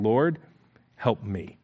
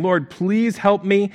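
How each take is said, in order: First: Soft, low, near-whispered plea; a hushed broken plea for help. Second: Drawn-out pleading, slow and higher; slow, insistent begging. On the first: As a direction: beg quietly from your knees. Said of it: "she came and knelt before him, saying". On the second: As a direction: stretch out each word like a plea. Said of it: "she's begging, saying". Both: Acted.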